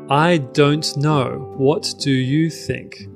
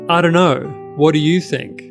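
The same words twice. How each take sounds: First: Every word is said in full. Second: The words are run together and reduced. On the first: "but it means" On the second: "Which sounds funny"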